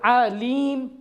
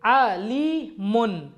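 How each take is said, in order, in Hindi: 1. शब्द बिना स्वर वाले 'm' की आवाज़ पर खत्म होता है। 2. शब्द 'un' की आवाज़ पर खत्म होता है।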